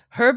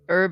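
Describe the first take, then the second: First: The word begins with an audible H sound. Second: The word begins without any H sound. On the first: It is a person's name. "Herb is a guy" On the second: It is a plant used in food. "Herb is what we use for food"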